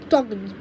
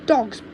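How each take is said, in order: Both takes have the same delivery.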